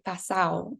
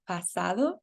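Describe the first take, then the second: First: The d sound between the vowels is dropped. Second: The d sound between the vowels is kept.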